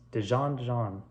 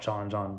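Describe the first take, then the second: First: The D sound at the start is pronounced. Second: The D sound at the start is dropped. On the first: The speaker calls it right. "but it's Dijon Jean" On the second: The speaker calls it wrong. "I don't pronounce the D. I just call it Jean Jean"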